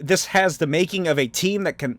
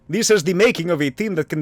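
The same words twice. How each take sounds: First: It is said in the speaker's normal accent. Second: It is said in a put-on Russian accent.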